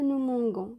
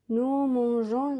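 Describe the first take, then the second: First: The middle consonant is a hard 'g' sound. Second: The middle consonant is a soft 'zh' sound. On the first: The speaker calls it wrong. "mais pas nous mangons" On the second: The speaker calls it right. "لازم تخلوا le G pour prononcer la lettre G"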